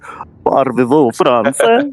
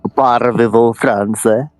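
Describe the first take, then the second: First: It is said with a put-on French accent. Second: It is said with no French accent.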